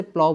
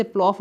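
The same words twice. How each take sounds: First: प्लाव said like "plow", no f sound; correct silent ending. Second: प्लॉफ said with a final f sound; mispronounced प्लॉफ. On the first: Teacher correcting students' reading of the word, प्लाव without f. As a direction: let प्लाव glide out in an open "ow". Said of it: "इसे प्लाव बोलेंगे". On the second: Teacher showing students how not to say it, प्लॉफ with an f. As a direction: end प्लॉफ on an audible f. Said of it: "इसे प्लॉफ नहीं बोलेंगे". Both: Shown as a demonstration.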